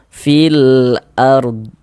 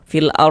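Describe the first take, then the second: First: The final d is clearly pronounced at the end. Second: The final d is dropped, ending on r. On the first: The speaker calls it right. "harus ada ada huruf dotnya di ujungnya" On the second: The speaker calls it wrong. "Jangan jangan cuma dibaca fil ar, cuman fil ar, fil ar begitu, jangan"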